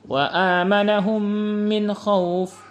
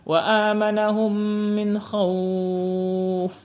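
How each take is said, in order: First: The vowel in khauf is held briefly. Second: The vowel in khauf is held very long. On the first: "dua harokah" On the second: "enam harokah"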